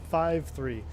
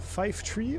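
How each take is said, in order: First: Five ends in V, three starts with TH. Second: Five ends in F, three starts with T. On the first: This is the everyday pronunciation of the numbers. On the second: This is the radio pronunciation of the numbers.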